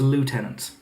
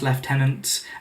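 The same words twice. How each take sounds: First: It is said with an American pronunciation. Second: It is said with a British pronunciation.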